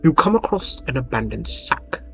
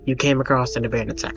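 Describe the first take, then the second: First: It is read with lively, emotional expression. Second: It is read in a flat, plain talking voice. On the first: The speaker calls it right. "I can try to actually use like emotion in my voice sometimes" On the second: The speaker calls it wrong. "just talking like"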